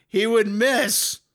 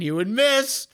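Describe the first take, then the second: First: He would miss, louder, higher, slow, stress on would; louder slow repeat. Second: Said in the usual way. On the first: Real, not acted.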